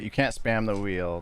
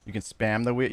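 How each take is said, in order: First: Can't stressed, whole line said slowly. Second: Said in the usual way. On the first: Shown as a demonstration. Correcting himself for chat, slow with can't stressed. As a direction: lean on the word can't and take it slow.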